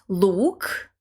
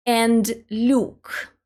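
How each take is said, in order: First: "look" with a hard, dark l and a plain oo; "look" said with a firm hard l, no y-glide. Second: "look" with a soft l gliding into a y-sound, like lyuk; "look" said with a palatal l and a yu vowel. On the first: Teacher demonstrates the hard "look" to learners, clearly articulated. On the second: Teacher contrasts the soft "look" for learners, carefully articulated. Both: Shown as a demonstration. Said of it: "Notice the difference between the two words".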